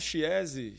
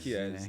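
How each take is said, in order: First: The name is said with a Portuguese-style pronunciation. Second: The name is said with an Italian pronunciation. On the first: It helps people remember the name. "eu falo Chiesi, chinelo com maionese" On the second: It is the original pronunciation of the name. "mas a pronúncia em italiano é Chiesi"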